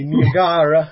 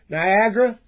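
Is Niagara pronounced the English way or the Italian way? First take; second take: Italian; English. First: It is said with an Italian pronunciation. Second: It is said with a plain English pronunciation.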